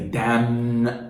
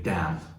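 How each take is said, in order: First: The word ends with an audible n sound. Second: The word ends in m with no n sound. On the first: The speaker calls it wrong. "you don't say damn" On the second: The speaker calls it right. "you say damn. The n is gone"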